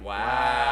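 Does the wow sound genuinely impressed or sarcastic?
sarcastic. It sounds sarcastic, offended and not impressed.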